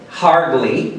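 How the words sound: It is said with a strong R sound. "da forma americana"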